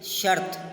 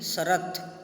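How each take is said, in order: First: The r is said with no vowel after it. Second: A vowel is added between r and t. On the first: The speaker calls it right. "स्वर रहित र के रूप में बोला जाता है" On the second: The speaker calls it wrong. "शरत ... बोलना अशुद्ध है"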